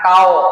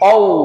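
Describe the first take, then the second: First: The first consonant is a light k. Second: The first consonant is a heavy, deep q. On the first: The speaker calls it wrong. "bukan kau" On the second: The speaker calls it right. "tapi kau"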